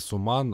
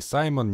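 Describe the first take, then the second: First: The name is said as Suman, with an 'u' vowel. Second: The name is said as Saimon, with an 'ai' diphthong. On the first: "не Суман" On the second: "не Саймон"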